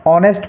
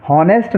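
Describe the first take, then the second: First: ऑनेस्ट starting straight on the vowel, no h; silent H. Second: हॉनेस्ट with an audible h at the start; mistaken H sounded. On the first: Teacher correcting the reading of honest, ऑनेस्ट without any h. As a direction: say ऑनेस्ट, dropping the h. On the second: Teacher warning students off a mistake, हॉनेस्ट with a sounded h. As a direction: breathe an h onto हॉनेस्ट. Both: Shown as a demonstration. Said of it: "हॉनेस्ट नहीं पढ़ना है".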